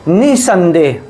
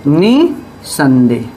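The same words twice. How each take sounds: First: Said in the usual way. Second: Slow निसंदेह with the नि pushed hard; stress on NI. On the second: Shown as a demonstration. Teacher showing students stress on नि in निसंदेह. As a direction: lean on नि in निसंदेह, drawn out. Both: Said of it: "अब ये नि पे हम अधिक बल देते हैं".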